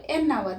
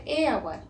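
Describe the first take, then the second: First: "N hour" linked through the n into the vowel; correct article before hour. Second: "A hour" with two vowels meeting, no linking n; wrong article before hour. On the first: Teacher modelling the right article, "N hour" linked by n. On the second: Teacher showing the wrong form, "A hour" without linking n. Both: Shown as a demonstration. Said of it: "not A hour".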